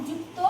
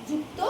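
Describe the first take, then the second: Both takes have the same delivery.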